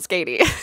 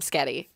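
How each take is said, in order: First: The vowel sounds like 'ay', as in weighty. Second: The vowel sounds like 'eh', as in spaghetti. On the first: The speaker calls it right. "I think it's Skatey" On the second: The speaker calls it wrong. "because I have a horrible southern accent on certain words"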